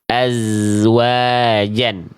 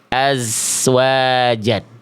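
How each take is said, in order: First: The consonant is a clear buzzing z sound. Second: The consonant drifts toward a hissing s sound. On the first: The speaker calls it right. "bunyi yang semestinya itu dibaca begini" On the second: The speaker calls it wrong. "Bunyinya udah mulai tercampur baur dengan huruf lain. Apa? Dengan huruf sin"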